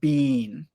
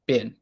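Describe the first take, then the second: First: The vowel is long, like 'bean'. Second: The vowel is short, like 'bin'. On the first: "Many British people pronounce it more like bean" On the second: "for most American people, we usually pronounce it more like ben or bin"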